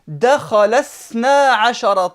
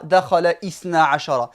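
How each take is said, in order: First: The initial 'i' is dropped, words run together. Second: The initial 'i' of ithna is pronounced separately. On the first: The speaker calls it right. "Mais je vais plutôt dire ... Je passe directement" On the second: The speaker calls it wrong. "Je ne dis pas dakhala ithna ashara"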